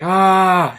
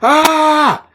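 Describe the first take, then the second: First: The yell is low and held back. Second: The yell is at full, maximum loudness. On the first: A repressed person's hesitant first try. "That was a low yell" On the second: He let everything out on the first try. "He went one hundred percent"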